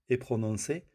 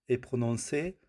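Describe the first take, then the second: No difference in how they are said.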